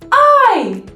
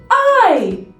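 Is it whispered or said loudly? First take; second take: loudly; loudly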